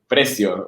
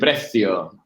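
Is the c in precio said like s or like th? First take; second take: s; th. First: The c is said like an s. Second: The c is said like a soft th. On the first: This is the Mexico pronunciation. "Precio with S" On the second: This is the Spain pronunciation. "in Spain, because this is a Spanish text, you say precio"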